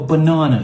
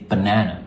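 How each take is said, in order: First: The word is said in a British accent. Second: The word is said in an American accent. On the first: "as the Brits would say. They say" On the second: "the Americans are slightly better. They say banana"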